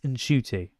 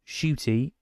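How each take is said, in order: First: The name starts with an n before sh. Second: The name starts directly with a sh sound. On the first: The speaker calls it right. "it's Nshooty" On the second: The speaker calls it wrong. "it's not Shooty"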